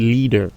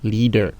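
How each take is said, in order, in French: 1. Il se prononce avec des voyelles anglaises. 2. Il se prononce avec des voyelles anglaises.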